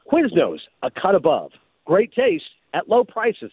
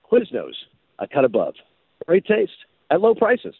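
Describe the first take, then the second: First: Big, projected commercial announcer tagline; projecting announcer read. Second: Hands in pockets, not bothering to sell it; disaffected teenager. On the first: First audition take for Quiznos, projected announcer read. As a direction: punch the tagline like a sportscaster. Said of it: "You keep doing it too much like an announcer. You're projecting too much". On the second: Winning take for the Quiznos director, sheepish teenager read. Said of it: "Think of it like you're a disaffected teenager". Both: Shown as a demonstration.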